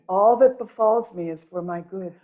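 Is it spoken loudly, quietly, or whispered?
loudly. It is spoken at normal loudness.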